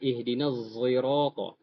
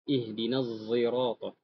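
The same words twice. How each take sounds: First: The word sirata begins with a z sound. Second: The word sirata begins with a z sound.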